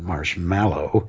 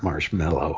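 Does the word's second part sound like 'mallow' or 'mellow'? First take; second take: mallow; mellow. First: The second part sounds like 'mallow'. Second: The second part sounds like 'mellow'. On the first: The speaker calls it right. "the word is actually marshmallow originally" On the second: The speaker calls it wrong. "we came to pronounce it mellow"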